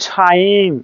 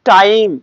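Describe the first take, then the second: First: টাইম with a puffed T like ঠ; breath bursts out on the T of টাইম; aspirated T. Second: টাইম with a plain T, no puff; unaspirated T. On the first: Teacher correcting time for students, aspirated টাইম. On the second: Teacher giving the usual form first, unaspirated টাইম. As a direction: keep the T of টাইম breathless. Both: Shown as a demonstration. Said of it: "ঠর উচ্চারণ হবে".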